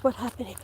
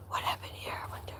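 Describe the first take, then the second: First: Quiet wondering. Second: Unvoiced wondering whisper. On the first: Whispering on the walk. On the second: Vlogger whispering while finding storm damage. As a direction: hush the question to yourself. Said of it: "I'm whispering". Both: Real, not acted.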